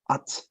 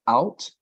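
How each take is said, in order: First: "at" as an open ah, no ow glide, then T; American ought. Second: "out" with an ow diphthong, the tempting wrong way; mispronounced ought. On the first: Teacher modelling the American pronunciation for a student, American ought. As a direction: say "at" like "aht", one pure vowel. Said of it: "the pronunciation would be". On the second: Teacher warning a student about the tempting reading, mispronounced ought. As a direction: say "out", gliding into an ow sound. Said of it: "tempted to pronounce it like out". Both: Shown as a demonstration.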